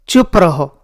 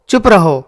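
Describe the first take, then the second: Both takes have the same delivery.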